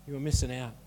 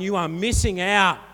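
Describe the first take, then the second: First: Low, soft "You are missing out"; hushed, lowered restatement; quiet repeat. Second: Firm, raised delivery of MISSING OUT; emphatic warning. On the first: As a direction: drop right down to let it sink in. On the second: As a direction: drive home "you are missing out". Preacher drives home the warning. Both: Real, not acted.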